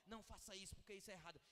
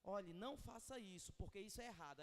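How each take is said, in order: First: "Não faça isso" said softer as a cold, curt command; read as an order. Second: Said in the usual way. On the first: Shown as a demonstration. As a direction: make "Não faça isso, porque isso é errado" sound like a dry order. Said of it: "como uma ordem". ("Não faça isso" dito como ordem seca e fria) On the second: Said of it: "se a pessoa lê".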